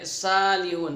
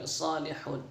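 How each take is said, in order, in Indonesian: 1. Konsonan pertama adalah s biasa. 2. Konsonan pertama adalah s emfatis. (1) "jangan sampai salihun" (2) "so ... tapi salihun"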